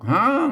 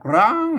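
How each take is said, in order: First: The word begins with an h sound. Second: The word begins with an r sound. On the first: This is the Lanna pronunciation. "ถ้าเป็นภาษาละนามันออกห้าง" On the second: This is the Central Thai pronunciation. "เป็นไทยออกร้าง"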